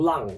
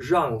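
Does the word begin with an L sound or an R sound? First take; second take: L sound; R sound. First: The word begins with a flat L sound. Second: The word begins with a curled-tongue R sound.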